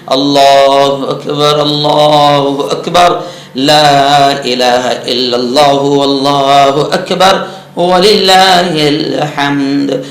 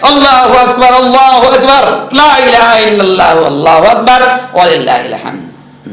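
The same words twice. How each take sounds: First: It is said in a mildly raised voice. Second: It is shouted very loudly.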